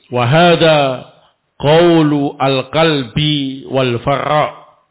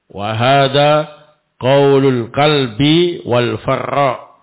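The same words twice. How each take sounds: The two takes are said the same way.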